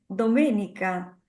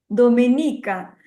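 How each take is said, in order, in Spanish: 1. El acento cae en la sílaba habitual. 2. El acento cae en una sílaba equivocada. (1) "yo quería decir Doménica" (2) "no sabía dónde iba el acento y, y dije Domenica"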